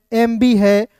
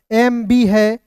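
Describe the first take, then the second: No difference in how they are said.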